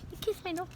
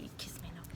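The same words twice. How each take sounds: First: High, soft squeaky coo. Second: Tiny whispered coo; affectionate whisper. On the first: Owner to dog kissing her nose, high baby talk. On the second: Owner to dog kissing her nose, affectionate whisper. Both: Real, not acted.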